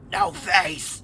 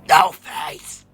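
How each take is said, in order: First: It is said louder and threatening. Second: It is shouted at full volume.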